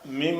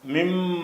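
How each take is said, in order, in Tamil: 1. m ஒலி குறுகியது, ஒற்றையானது. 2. m ஒலி இரட்டித்து, நீட்டி ஒலிக்கும். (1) "மிம என்று படிக்காமல்"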